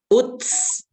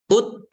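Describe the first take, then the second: First: The final t has a hissing s sound. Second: The final t is clean, without hiss. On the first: The speaker calls it wrong. "Jangan sampai ada S-nya" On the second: The speaker calls it right.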